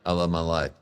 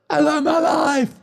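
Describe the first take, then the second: First: It is said flatly, without conviction. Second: It is said forcefully, with real conviction. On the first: The speaker calls it wrong. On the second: The speaker calls it right. "say it like you mean it"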